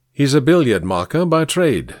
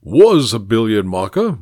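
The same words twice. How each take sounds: First: Said in the usual way. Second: "Was" punched loud, rising correction; stress on Was. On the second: Acted. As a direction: lean hard on "Was" to correct him. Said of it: "Mycroft corrected".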